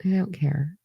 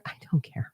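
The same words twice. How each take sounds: First: Unvoiced and softer, rising end; breathy whisper, rising; whispered again. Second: Unvoiced, much softer; barely voiced dismissal; whispered I don't care. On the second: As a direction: whisper it flatly. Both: Real, not acted.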